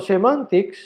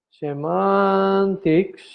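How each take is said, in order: First: Said in the usual way. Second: "Semantics" drawn out very slowly; slow dictation. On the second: Shown as a demonstration. Teacher repeats a key term for the class, slow dictation. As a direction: stretch the middle of "Semantics", syllable by syllable.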